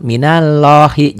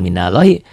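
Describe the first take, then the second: First: Minallahi slow, high and loud, with rounded "lloh"; correct thick reading. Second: Minallahi quicker, with an open "llah"; mistaken thin reading. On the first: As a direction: draw out minallahi with a heavy O in the middle. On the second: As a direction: say minallahi as spelled, with a plain A. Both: Shown as a demonstration. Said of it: "jangan minallahi".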